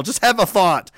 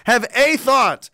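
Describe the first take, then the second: First: Said in the usual way. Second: "a" said as a long, emphatic "ay"; slow down and punch the word "a"; stress on A. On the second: Real, not acted. Repeats it, stressing the article.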